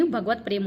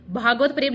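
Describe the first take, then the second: First: Short first vowel in भगवत; correct form. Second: Long aa in भागवत; wrong form. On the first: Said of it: "भगवत प्रेम होता है". (सही उच्चारण, भगवत में छोटा अ) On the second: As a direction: stretch the first vowel of भागवत. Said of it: "भागवत प्रेम नहीं". (गलत उच्चारण, भागवत में लंबा आ) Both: Shown as a demonstration.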